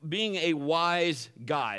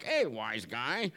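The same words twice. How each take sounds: First: Said in the usual way. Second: Sarcastic jab. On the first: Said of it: "but being a wise guy". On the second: Shown as a demonstration. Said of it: "Not as much as like".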